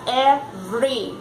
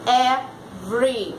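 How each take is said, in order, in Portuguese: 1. A vogal do meio não é pronunciada, resultando em duas sílabas. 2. A vogal do meio não é pronunciada, resultando em duas sílabas.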